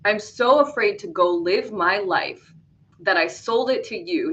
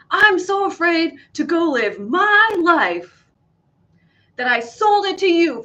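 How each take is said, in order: First: It is read in a plain, natural voice. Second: It is read in a dramatic, acted voice.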